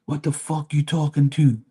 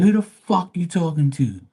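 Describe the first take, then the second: First: Angry customer. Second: High, heated mock retort; defiant comeback. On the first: Retold or imitated. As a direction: act out the pushy customer demanding service. Customer snapping at speaker. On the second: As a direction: throw the question back at him, higher. Speaker retorts to customer.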